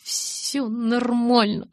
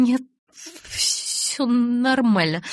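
First: Slow, trembling, higher insistence; shivering protest. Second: Slow, shaking, higher voice; shivering reassurance. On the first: Bella insists she is fine while freezing. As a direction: protest through chattering teeth. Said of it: "запротестовала я". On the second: Bella tells Edward she's fine, freezing. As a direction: insist you're fine while trembling. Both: A narrator's reading.

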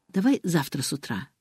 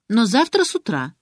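First: Said in the usual way. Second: Завтра pushed higher and louder; a daughter insisting on "завтра" first thing; stress on завтра. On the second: A narrator's reading. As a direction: insist on "завтра" with a firm accent.

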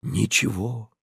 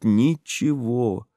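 First: Ничего softer, dying away; fading echo. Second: Drawn out slowly, ничего stretched; slow insistent. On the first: Olesya repeating to her lover, fading ничего. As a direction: let ничего trail off quietly. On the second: Olesya insisting to her lover, slow ничего. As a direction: dwell on ничего. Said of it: "твердила она настойчиво". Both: A narrator's reading.

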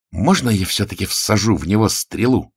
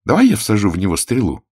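First: Eager, raised-pitch pleading; lightly voiced bloodthirsty request. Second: Said in the usual way. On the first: A narrator's reading. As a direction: ask keenly for permission to shoot. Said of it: "кровожадно спросила Анка". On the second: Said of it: "предложила Анка".

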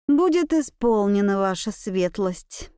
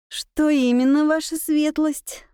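First: Stiff and prim, slowing at the end; primly formal, every word proper. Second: Politely deferential question; respectful. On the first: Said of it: "я чопорно произнесла". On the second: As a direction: ask with careful respect. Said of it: "Со всем возможным почтением". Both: A narrator's reading.

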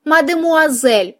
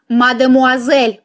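First: Lightly squeaked, drawn-out obedient reply; a hint of a meek mouse, slightly raised. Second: A firm, drawn-out correction at usual pitch; automatic correction. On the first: Mouse repeats the corrected title, obedient little squeak. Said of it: "послушно пискнула мышка". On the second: Heroine corrects how the mouse addresses her, automatic correction. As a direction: correct them by reflex, stretching the word out. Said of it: "машинально поправила я". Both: A narrator's reading.

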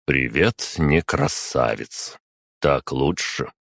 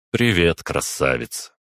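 First: Slow, deliberately unenthused greeting; measured, put-on correction; mock resignation. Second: Easy, breezy hello with a lifted start; casual flirty hello; light greeting. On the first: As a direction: drag the hello out in mock concession. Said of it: "напоказ выдохнул я". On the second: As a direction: greet her lightly, pitch dropping away. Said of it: "Легко поздоровался я". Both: A narrator's reading.

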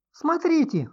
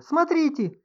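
First: High piercing shriek, louder. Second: High piercing shriek, louder; shriek again. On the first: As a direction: shriek in sudden alarm. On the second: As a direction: keep shrieking in alarm. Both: A narrator's reading. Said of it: "взвизгнула вдруг Инга". (визг испуганной женщины)

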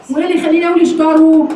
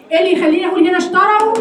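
First: اشتروا with a damma on the ra, "ishtaru"; rounded ra. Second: اشتروا with an open ra, "ishtaraw". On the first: Teacher contrasting the two readings, damma on ra. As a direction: end اشتروا on "ru". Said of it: "وهنا مضمومه". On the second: Teacher contrasting the two readings of اشتروا, fath on ra. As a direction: end اشتروا on "raw". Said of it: "لان هنا الراء مفتوحه". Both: Shown as a demonstration.

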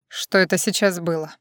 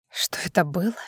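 First: Said in the usual way. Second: Hushed whispered echo of his question; bitter whisper. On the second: A narrator's reading. Drunk Vlada throws his words back, whispering. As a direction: breathe it back at him in a whisper.

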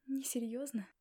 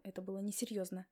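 First: Bitter mocking echo of his word; a bitter, scoffing echo. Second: Said in the usual way. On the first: A narrator's reading. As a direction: throw his own word back, bitterly. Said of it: "горько усмехнулась я".

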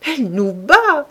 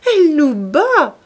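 First: Higher, louder gleeful call; old man laughing at her blows; gleeful cry. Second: Higher, louder and slower gleeful cry; gleeful repeat, bigger. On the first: (s'écrier gaiement, plus haut et plus fort) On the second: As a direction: lean harder into the mock alarm. (répéter gaiement, encore plus fort et plus lent) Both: A narrator's reading. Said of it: "répéta gaiement".

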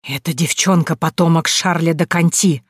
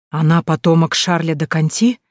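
First: Said in the usual way. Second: Amazed. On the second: A narrator's reading. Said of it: "изумился дрожащий Клод".

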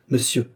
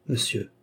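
First: Higher-pitched, mildly indignant exclamation; indignant cry. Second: Quiet, cold address; coldly. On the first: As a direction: cry out in wounded pride. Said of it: "s'écria-t-elle". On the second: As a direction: say it with cool restraint. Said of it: "dit froidement Thérèse". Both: A narrator's reading.

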